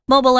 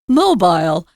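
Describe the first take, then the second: First: It is said with an American pronunciation. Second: It is said with a British pronunciation. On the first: "That's American English" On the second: "There's a pronunciation of this word mobile that's different if you're in the U K. They say mobile"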